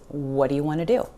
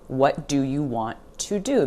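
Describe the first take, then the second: First: The words are reduced and run together. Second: Every word is said fully and carefully. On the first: "You're going to hear it spoken as" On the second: "you're not going to hear it spoken that way"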